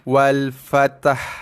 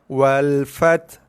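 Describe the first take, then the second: First: The word ends with an added ha syllable. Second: The word ends on a bare t sound. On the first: Two silent letters are merged into one syllable. "menggabungkan, mencantumkan dua huruf mati menjadi satu huruf ataupun menjadi satu suku kata" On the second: The final letter is dropped. "kita hanya membunyikan huruf ta mati saja. Kita dah gugur, buang, dah campak dah huruf ha itu"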